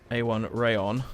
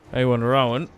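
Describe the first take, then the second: First: The last part sounds like 'rayon'. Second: The last part sounds like 'rowan'. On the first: The speaker calls it right. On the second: The speaker calls it wrong.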